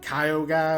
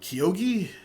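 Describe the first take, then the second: First: The last syllable sounds like 'guy'. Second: The last syllable sounds like 'gee'. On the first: This follows how the letters look when read. The speaker calls it wrong. "Like I thought it would be like Kyo guy" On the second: This follows how the man himself says it. The speaker calls it right. "I think is how it's pronounced"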